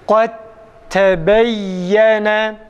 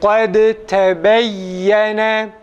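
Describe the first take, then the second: First: The d merges fully into a doubled t. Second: The d is released separately with a bounce. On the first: The speaker calls it right. "kalkalesiz idgamlı okuyalım" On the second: The speaker calls it wrong. "bu okunuşun yanlış olduğunu ... Tam açık kalkara yapıyoruz"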